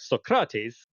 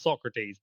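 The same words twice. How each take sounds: First: The name is said with classical Greek pronunciation. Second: The name is said with an anglicized pronunciation. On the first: It was learned from a game aiming at classical pronunciation. The speaker calls it right. "he does the more correct Socrates" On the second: It was learned in a modern academic setting. The speaker calls it wrong. "so I call him Socrates"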